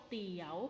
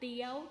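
First: The syllable has a rising tone. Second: The syllable has a high tone. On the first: "จัตวา" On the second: "ตรี"

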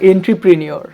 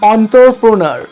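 First: The word begins with 'en-tre' and ends '-neur'. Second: The word begins with 'on-tro' and ends '-nar'. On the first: "এটাই বেশি সুন্দর উচ্চারণ না?" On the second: "কি বাজে উচ্চারণ করলাম না"

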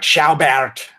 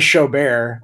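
First: The surname is said with a German pronunciation. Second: The surname is said like 'show bear'. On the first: This is how people in the name's country of origin say it. "in Germany, they're like Schaubert, which like only a handful of linguists get right" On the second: This is how people where the speaker lives say it. "Out here, they say Showbear"

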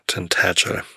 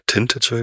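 First: The stress is on the second syllable. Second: The stress is on the first syllable. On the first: The speaker calls it right. "Betonung auf der zweiten Silbe" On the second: The speaker calls it wrong. "also Betonung auf der ersten Silbe"

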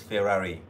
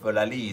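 First: The r sounds are pronounced as r sounds. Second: The r sounds are pronounced as l sounds. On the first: "Felali is Ferrari" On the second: "And you say Felali"

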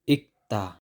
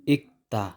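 No difference in how they are said.

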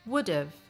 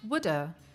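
First: Have is reduced to a schwa and v. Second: Have is reduced to just a schwa. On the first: "or a schwa and a v sound" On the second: "or it's reduced to just a schwa sound"

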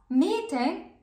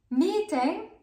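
The two takes are said the same way.

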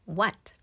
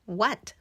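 The two takes are said the same way.

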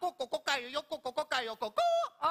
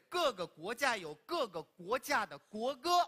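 First: It is said in Cantonese. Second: It is said in standard Mandarin.

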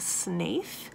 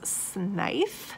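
First: The name ends with a th sound. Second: The name ends with an f sound. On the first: "I've always said Barney Snaith" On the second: "the recording says Snife"

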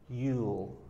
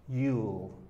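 No difference in how they are said.

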